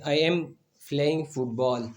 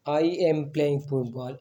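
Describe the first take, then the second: First: Said in the usual way. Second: Very slow, each word apart, with "am" pushed up; stress on am. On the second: Shown as a demonstration. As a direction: spell out "I am playing football" slowly, leaning on "am". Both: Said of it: "एम क्या है?".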